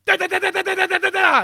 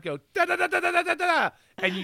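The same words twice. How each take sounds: First: Loud high "da da" bursts with hands up; full-power blast noises. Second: Limp blast noises. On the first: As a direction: give it everything, big anime blast. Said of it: "you actually go". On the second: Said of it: "just with your hands at your side". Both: Shown as a demonstration.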